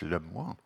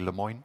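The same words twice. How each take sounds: First: The name is said with a French pronunciation. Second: The name is said with an American pronunciation. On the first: "If he's French, I'd say it's Lemoyne" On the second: "but probably Lemoyne"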